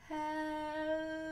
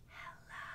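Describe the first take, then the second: First: It is said very slowly. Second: It is said very quietly.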